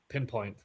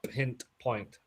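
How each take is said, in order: First: It is said with no t before point. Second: It is said with a t before point. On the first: The speaker calls it right. "So without T?" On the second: The speaker calls it wrong. "not pint point"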